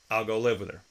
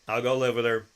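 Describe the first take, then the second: No difference in how they are said.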